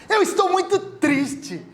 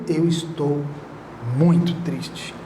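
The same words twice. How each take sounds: First: It is said in a cheerful, light voice. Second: It is said in a heavy, sad voice. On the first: The tone contradicts the words. The speaker calls it wrong. "Pô, dá uma contradição" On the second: The tone matches the sadness of the words. The speaker calls it right. "Ó, o peso"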